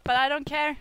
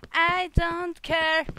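First: Even robot voice. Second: Slow, even robot voice. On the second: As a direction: drag it out like a robot. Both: Real, not acted. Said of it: "I sound like a fucking robot".

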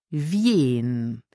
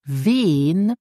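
First: "wien" with a y-glide, like "vyehn"; standard pronunciation. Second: "wen" with one long pure vowel, "veen" or "vehn", no y-glide; native speakers' pronunciation. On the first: Teacher contrasts it for learners, "wien" with the glide. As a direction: stretch "wien" with a glide after the v. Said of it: "instead of wien". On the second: Teacher shows what natives say, "wen" without the glide. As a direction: hold the simple vowel in "wen". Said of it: "more likely to hear native speakers saying". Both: Shown as a demonstration.

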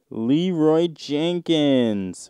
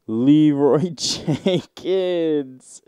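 First: Slow, hammed-up moaned name; mock moan. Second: Drawn-out, hammed-up moan of the name; a slow, exaggerated mock moan through a laugh. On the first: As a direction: stretch the name out in a fake moan. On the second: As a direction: moan it slowly like a lover. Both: Moaning names read from sex thread.

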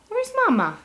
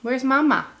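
First: Much higher playful question; high sing-song. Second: Said in the usual way. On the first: Real, not acted. Asking baby repeatedly.

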